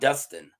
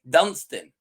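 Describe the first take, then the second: First: No n sound comes before the s. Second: An n sound comes before the s. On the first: The speaker calls it wrong. "not Dustin" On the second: The speaker calls it right. "Dunstan, not Dustin, right? You got to pronounce that"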